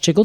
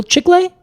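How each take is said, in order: First: "chicle" said CHICK-ul, rhyming with pickle; "chicle" with an English -ul ending; anglicized pronunciation. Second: "Chicle" said CHEEK-lay, high and questioning; "Chicle" with an -ay ending, pitched up as a question; tentative Spanish pronunciation. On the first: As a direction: say "chicle" as two syllables, CHICK-ul. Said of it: "I think it's pronounced chicle". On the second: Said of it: "Is that maybe it?". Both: Shown as a demonstration.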